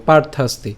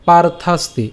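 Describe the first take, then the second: First: "পার্থাস্তি" as one joined word; said together. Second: "পার্থাস্তি" in distinct syllables; broken up. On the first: Teacher saying we join it, connected word. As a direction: run "পার্থাস্তি" through without a break. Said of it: "এটা আমরা একসাথে উচ্চারণ করবো". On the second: Teacher breaking the word for learners, split demo. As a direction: separate পার, থাস and তি in "পার্থাস্তি". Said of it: "শ্লোকটি আমি ভেঙে দিয়েছি". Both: Shown as a demonstration.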